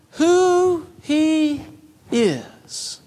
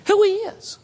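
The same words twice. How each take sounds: First: Said in the usual way. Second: Who he is lifted high, each word hit; preacher's high repeated emphasis on "Who he is"; emphatic repeat. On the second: Shown as a demonstration. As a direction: ring out "Who he is" up high as a proclamation.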